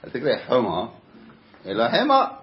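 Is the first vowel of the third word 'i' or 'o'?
o. The first key word is said with an 'o' vowel. The two words sound different. The speaker calls it right. "זה אותו סוף"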